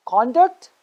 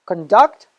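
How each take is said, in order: First: CONduct, stressed on the first syllable. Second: ConDUCT, stressed on the second syllable. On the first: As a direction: say "conduct" as the noun, punching "con". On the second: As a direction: say "conduct" as the verb, weight on "duct". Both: Shown as a demonstration. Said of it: "Let's do it one more time".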